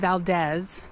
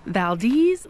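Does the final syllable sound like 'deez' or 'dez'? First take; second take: dez; deez. First: The last syllable does not rhyme with breeze. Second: The last syllable rhymes with breeze. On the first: The speaker calls it wrong. "Lots of people mispronounce the name of Valdez. They say Valdez" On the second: The speaker calls it right. "the best way to remember it is Valdez like the breeze"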